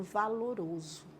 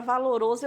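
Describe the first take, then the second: First: "valoroso" said softly, each syllable set apart; imitating a hushed, measured "valoroso"; lowered, syllables separated. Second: Said in the usual way. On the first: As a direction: drop the voice and draw out "va-lo-ro-so". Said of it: "eu lembro dela falando valoroso". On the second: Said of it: "toda vez que eu ouço a palavra valoroso".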